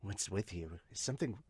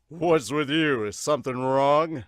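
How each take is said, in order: First: Low, soft character voice; quiet question. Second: Loud, projected coach question. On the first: Pitcher questioned on the field, low quiet voice. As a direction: ask it low and under-projected. First take, before spotting coach speaks. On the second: Coach asking if something is wrong, loud voice. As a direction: call it out loudly as the coach. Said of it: "oh, is that the coach?". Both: Acted.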